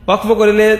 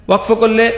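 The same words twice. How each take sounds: The two takes are said the same way.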